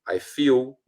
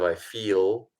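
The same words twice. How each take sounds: First: The final L sounds like a U vowel. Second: The final L sounds like a clear L. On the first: The speaker calls it wrong. "English words that end in L with a U sound" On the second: The speaker calls it right. "instead of"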